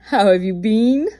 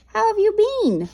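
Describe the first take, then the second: First: "been" stretched and stressed to sound like bean; pun on been. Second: "How have you been?" in a high, fast, bright voice; high quick greeting. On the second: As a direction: squeak it out like a jokey hello. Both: Shown as a demonstration. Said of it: "Get it?".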